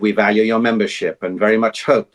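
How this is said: It is read low, inward and intense. "everything's just down and sort of in. It's very, everything's very intense"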